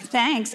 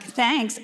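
First: It is said with a sarcastic tone. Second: The same.

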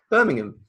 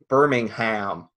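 First: Birmingham is said with a British pronunciation. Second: Birmingham is said with an American pronunciation. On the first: This is how the original British name is said. The speaker calls it right. "I said it wrong now" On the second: This is how the American town's name is said. The speaker calls it wrong. "there's a place called Birmingham in America, and they call it Birmingham"

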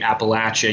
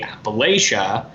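First: The word is said the southern way. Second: The word is said the northern way. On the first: The speaker is from the southern mountains. "the southerners say Appalachia usually" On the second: The speaker is from the northern mountains. "the northerners will say Appalachia"

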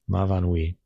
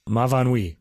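First: It is said evenly, with no strong stress. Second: It is said with American-style word stress.

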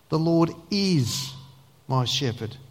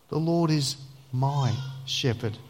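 First: The stress is on the word is. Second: The stress is on the word my.

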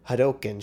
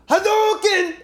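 First: It is said quietly and flatly. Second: It is screamed loudly.

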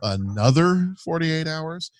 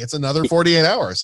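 First: The title is said in a weary, dismayed tone. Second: The title is said in an upbeat, excited tone. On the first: The speaker dreads sitting through more of it. "But for me, it's just like, oh" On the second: The makers were eager to present the sequel. "They're like, hey"

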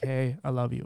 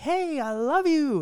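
First: It is said flatly, without warmth. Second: It is said warmly and with heartfelt feeling. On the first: The affection seems insincere despite being meant. "it doesn't sound as genuine" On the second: The affection is expressed openly. "it's hard to be like"

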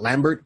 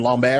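First: The name is pronounced in American style. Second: The name is pronounced in French style. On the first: The speaker calls it wrong. "and not Lambert" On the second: The speaker calls it right. "why am I saying his name Lambert"

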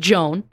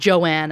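First: The name is said as one syllable. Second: The name is said as two syllables. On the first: This is the common reading of the spelling. The speaker calls it wrong. "which lots of people would pronounce Joan" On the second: This is how the person called herself. The speaker calls it right. "But she preferred to pronounce it Joanne"

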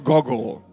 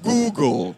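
First: The first vowel is short, like in goggle. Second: The first vowel is a long oo sound. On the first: The speaker calls it wrong. "not Google" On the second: The speaker calls it right. "Google, not Google"

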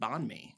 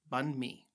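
First: The first syllable sounds like 'bon'. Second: The first syllable sounds like 'bun'. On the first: The speaker calls it wrong. "I would have said bon mi. ... that is incorrect" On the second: The speaker calls it right. "It is bun mi"

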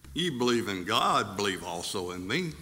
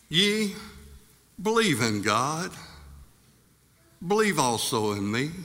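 First: It is said as a calm statement. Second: It is said as an urgent command. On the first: It states that the listener already believes. "then I'm stating some facts" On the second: The listener is urged to believe. "then you would understand I'm trying to call you to action"

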